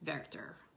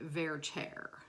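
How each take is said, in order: First: The name is said with a German pronunciation. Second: The name is said in the opera-world style. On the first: "they would say it with the German" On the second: "in opera world they say Werther, very pronouncedly"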